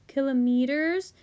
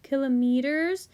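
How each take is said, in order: First: It is said the European way. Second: It is said the European way.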